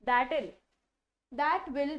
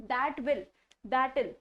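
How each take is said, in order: Both takes have the same delivery.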